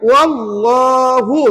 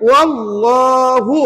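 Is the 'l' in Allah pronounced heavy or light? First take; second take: heavy; heavy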